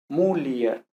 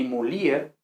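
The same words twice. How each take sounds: First: "mulier" slowly as MU-li-er; first-syllable stress, hiatus. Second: "mulier" as mu-LI-er, stress off the first syllable; wrong form. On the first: Teacher gives correct form, three slow syllables. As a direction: stress MU in "mulier", then li and er apart. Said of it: "sino mulier". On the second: Teacher rejects another mistaken form, stress on LI. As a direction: move the accent of "mulier" onto LI. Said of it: "ni mulier". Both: Shown as a demonstration.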